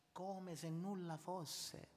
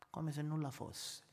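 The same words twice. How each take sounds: First: 1 quiet slow echo. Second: Said in the usual way. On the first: Shown as a demonstration.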